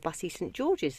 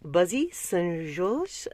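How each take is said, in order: First: The name is said with English-style pronunciation. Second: The name is said with French-style pronunciation.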